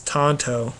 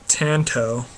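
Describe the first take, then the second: First: The first vowel sounds like the one in 'ton'. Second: The first vowel sounds like the one in 'tan'. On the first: This is how others corrected it. "people would correct me as Tonto" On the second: This is how the speaker always said it. "I always called it Tanto"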